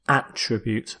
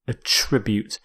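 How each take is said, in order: First: The stress is on the first syllable. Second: The stress is on the second syllable. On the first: It is used as a noun. "It also works as a noun where you stress the first" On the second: It is used as a verb. "But here as a verb"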